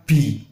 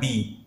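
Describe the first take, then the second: First: Slow bi with breath; wrong airy bi. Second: Soft clear bi; correct bi. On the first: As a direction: say "bi" with a puff. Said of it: "bukan bi". ("bi" salah berangin) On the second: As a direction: say "bi" without air. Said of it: "Ini dibaca bi". ("bi" jelas) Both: Shown as a demonstration.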